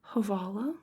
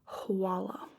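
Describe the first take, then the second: First: The second consonant is a hard V sound. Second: The second consonant is a W sound. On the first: "sometimes you'll hear Havala" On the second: "and sometimes you'll hear Hawala"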